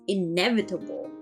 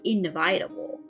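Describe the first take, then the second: First: A vowel in the word is kept short. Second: A vowel in the word is drawn out long. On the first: The speaker calls it right. "It's inevitable" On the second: The speaker calls it wrong. "not inevitable... pronouncing it long when it's supposed to be short"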